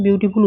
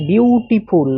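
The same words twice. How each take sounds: First: Said in the usual way. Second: বিউটিফুল drawn apart syllable by syllable; broken into syllables. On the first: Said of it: "তুমি একবারে কিন্তু বিউটিফুল". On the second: Shown as a demonstration. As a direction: split বিউটিফুল into three beats, বিউ-টি-ফুল. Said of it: "আমার কেটে কেটে করতে হচ্ছে".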